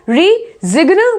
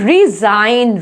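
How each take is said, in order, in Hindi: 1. n से पहले g उच्चारित होता है। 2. n से पहले g मौन होता है।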